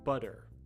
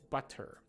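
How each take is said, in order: First: The middle consonant is a soft D sound. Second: The middle consonant is a clear T sound. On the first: "if I'm talking to someone casually in natural English, I would say" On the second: "so that you can hear, you can hear the T sounds in the middle of them"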